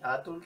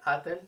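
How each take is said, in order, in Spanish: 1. Una vocal u separa la t y la l. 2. Una vocal e separa la t y la l. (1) "ni atul" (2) "no se escucha atel"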